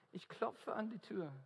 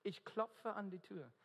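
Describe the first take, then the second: No difference in how they are said.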